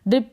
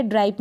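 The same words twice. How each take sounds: First: ड्रिप with a short i, "drip"; correct pronunciation. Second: ड्राइप with an "ai" vowel, "dripe"; wrong pronunciation. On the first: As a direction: say ड्रिप to rhyme with lip. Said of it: "ड्रिप पढ़ेंगे". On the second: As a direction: misread ड्राइप to rhyme with ripe. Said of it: "ड्राइप नहीं पढ़ेंगे". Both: Shown as a demonstration.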